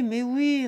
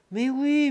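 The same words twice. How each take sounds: First: Put-on drunken eager yes. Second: A louder, higher, jovial "Mais oui"; drunken eager yes. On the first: Tipsy son agreeing to everything, cheerful and loud. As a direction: echo of the first "mais oui", a little less loud. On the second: Acted. Drunk son brushes off the haggling, jovial and loud. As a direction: wave it through like a tipsy, generous son.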